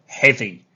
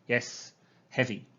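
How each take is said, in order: First: Heavy said loud and strong; emphatic. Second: Said in the usual way. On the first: Shown as a demonstration. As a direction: punch the word heavy. Teacher models the answer word.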